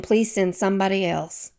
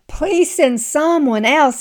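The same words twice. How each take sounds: First: Said in the usual way. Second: Higher, slow, pleading; pleading Moses. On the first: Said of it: "Moses for saying". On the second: Retold or imitated. Preacher acting Moses begging God, higher and slow. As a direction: beg to be let off the hook, pitched up. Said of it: "he says in verse thirteen".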